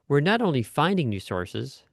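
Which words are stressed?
finding. Only finding is stressed, not new.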